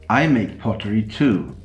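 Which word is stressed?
I. The word I carries the main stress. Another person also makes pottery. "You're not the only one who makes pottery"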